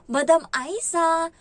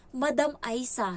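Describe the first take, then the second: First: Slow, high, loud teasing drawl of the name; mocking. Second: Said in the usual way. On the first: Employer mockingly calling her maid madam. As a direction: stretch the name out to needle her. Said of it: "nangaasar daw". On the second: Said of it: "ang tawag niya sa akin".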